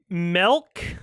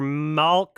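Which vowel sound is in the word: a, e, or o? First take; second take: e; a. First: The word is said with an E-like vowel. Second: The word is said with an A-like vowel. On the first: "with an E" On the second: "with an A"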